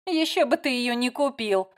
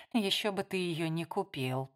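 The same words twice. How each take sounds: First: A touch of a smirk, ещё stressed and falling. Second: Softer, private thought, ещё lightly leaned on; inner thought. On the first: Layla teases Matt out loud, mildly smirking. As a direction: say it with a light mocking smirk. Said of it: "усмехнулась Лайла". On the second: Jo thinks it silently about Matt, softly. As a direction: think it quietly to yourself. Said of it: "подумала Джо". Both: A narrator's reading.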